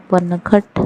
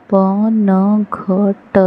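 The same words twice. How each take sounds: First: Said in the usual way. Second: पनघट split into slow syllables प-न-घ-ट; spelled out slowly. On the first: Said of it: "whole word after sounding out". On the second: Shown as a demonstration. Teacher sounding out पनघट slowly for beginners. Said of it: "syllable-by-syllable then whole".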